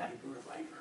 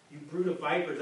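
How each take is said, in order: First: Low gravelly-free growl, deep and quiet; mock Batman, pitched way down; lightly hammed Batman impression. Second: Said in the usual way. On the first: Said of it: "like, in a Batman voice". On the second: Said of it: "he said to them".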